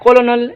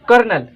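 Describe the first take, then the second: First: It is said in three syllables with an l. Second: It is said in two syllables, like kernel. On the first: The speaker calls it wrong. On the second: The speaker calls it right.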